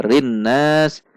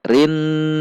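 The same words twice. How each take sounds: First: Rinnas with the nun not held; wrong take. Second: Rinna with the nun hummed two beats; correct ghunnah. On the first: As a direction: clip rinnas short as the mistake. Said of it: "Tidak boleh dibaca rinnas". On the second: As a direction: hold the nasal hum in rinna. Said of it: "namun dibaca rinna". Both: Shown as a demonstration.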